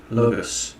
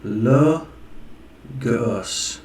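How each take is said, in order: First: Said in the usual way. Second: LOGOS stretched out slowly in two parts; sounded-out final sigma. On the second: Shown as a demonstration. Showing final sigma's sound, LOGOS sounded out slowly. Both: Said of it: "Makes this sound".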